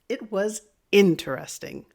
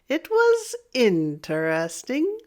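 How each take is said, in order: First: The pitch goes up high, then drops at the end. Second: The pitch dips down, then rises at the end. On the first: The speaker is excited about it. "raise your voice, but you're going to drop it at the end" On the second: The speaker has some reservation or doubt. "if I use a down and up"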